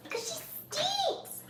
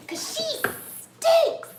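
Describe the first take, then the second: First: Very high, slow little voice; drawn-out squeaky tease, held back in volume; softer pet tease. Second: Loud, very high, drawn-out tease; stretched high-pitched mock complaint; teasing pet voice. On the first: Repeats the tease more softly. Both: Real, not acted.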